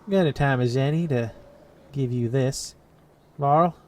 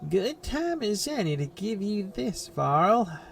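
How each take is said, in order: First: It is said in an unintended slipped-into voice. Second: It is said in the intended character voice.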